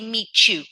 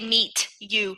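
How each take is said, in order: First: The T and Y blend into a ch sound. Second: The T and Y are said separately. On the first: The speaker calls it right. "when you're combining, we say meet you" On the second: The speaker calls it wrong. "we don't say meet you"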